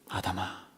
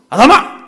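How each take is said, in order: First: It is said in a stern but loving tone. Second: It is called out like an angry father.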